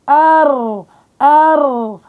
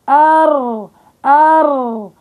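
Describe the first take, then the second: The two takes are said the same way.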